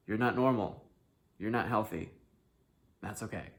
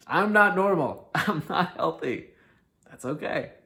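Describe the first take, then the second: First: Said in the usual way. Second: Louder, higher, slow, with a laugh; a cheerful, laughing admission; laughing declaration. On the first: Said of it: "repeated as a plain statement". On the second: Shown as a demonstration. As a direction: proudly own it with a laugh. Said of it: "repeated, louder and laughing".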